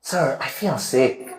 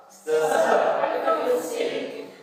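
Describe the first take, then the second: First: Slow, weak and quiet, like you're ill; sick voice. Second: High, whispered giggle through the words; laughing while saying it. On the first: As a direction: drag it out softly as if feeling sick. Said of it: "look at my expression and learn it". (suara lemah seperti orang sakit) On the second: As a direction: say it while cracking up. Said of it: "kalau ngana pe ekspresi itu sama dengan Julio pe ekspresi". (sambil tertawa berbisik) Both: Shown as a demonstration.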